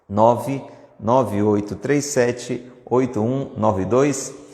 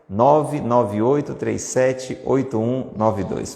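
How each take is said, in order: First: The number is read very slowly. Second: The number is read at a normal pace.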